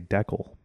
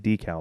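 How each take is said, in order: First: It is said the non-American, Canadian way. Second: It is said the American way.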